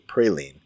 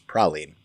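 First: Praline is said the Georgia way. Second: Praline is said the Louisiana way. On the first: This is how it is said in Georgia. "So in Georgia, they say praline" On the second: This is how it is said along the Gulf Coast. "But in Louisiana and along the Gulf Coast, where it is a French word, it is praline"

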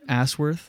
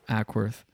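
First: The name starts with a soft S sound. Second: The name starts with a hard K sound. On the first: The speaker calls it wrong. "there's no K there to make it a hard K" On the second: The speaker calls it right.

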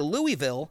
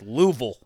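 First: The middle 'i' sound is clearly pronounced. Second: The middle 'i' sound is dropped entirely. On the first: It marks the speaker as an outsider. The speaker calls it wrong. "You'll stand right out if you walk through town saying" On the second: It is how the locals say it. The speaker calls it right. "It's Louisville"

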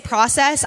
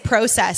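First: It is said without the British-Canadian pronunciation. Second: It is said with the British-Canadian pronunciation. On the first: This is how the listeners usually say it. "I don't say process" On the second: This is how the speaker naturally says it. "I'm Canadian and British, ... I say process"

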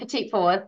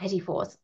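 First: The first word ends with a 't' sound. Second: The first word ends with an 'ee' sound. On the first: The speaker calls it wrong. "I said that wrong" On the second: The speaker calls it right.

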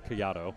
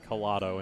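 First: The name is said with a non-American pronunciation. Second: The name is said with an Americanized pronunciation. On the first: The speaker calls it right. "instead of Collado" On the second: The speaker calls it wrong. "I did more of an Americanized Collado"

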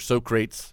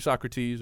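First: The name is said in an altered pronunciation. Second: The name is said in its usual pronunciation.

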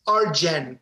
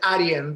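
First: The middle consonant is an English J sound. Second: The middle consonant is a Y sound. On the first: "It's Arjen" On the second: "but you pronounce it Arjen. The J is an I in Europe"

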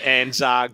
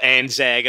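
First: The second syllable has a long 'ar' vowel. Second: The second syllable has a short plain 'a' vowel. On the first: This is the speaker's own way of saying it. "I call it ANZAG because double A has always been an R to me" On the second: This is how most people say it. "most people call it ANZAG"

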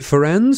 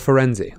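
First: The name ends on a consonant, no final vowel. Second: The name ends with an added final vowel sound. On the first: "I don't know whether or not to drop that noise" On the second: "I have the instinct to tag on that vowel sound at the end"

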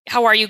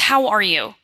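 First: It is asked in a quick, offhand way. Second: It is asked warmly, with genuine interest.

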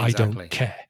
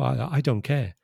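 First: The voice sounds cold and harsh. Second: The voice sounds warm and friendly. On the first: The tone matches the harsh meaning of the words. The speaker calls it right. "with a very different tone of voice" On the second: The tone clashes with the harsh meaning of the words. The speaker calls it wrong. "in a very friendly, nice tone of voice"

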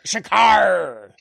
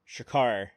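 First: It is yelled in a put-on pirate voice. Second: It is said in a normal speaking voice.

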